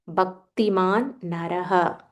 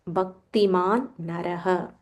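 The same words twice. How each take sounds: No difference in how they are said.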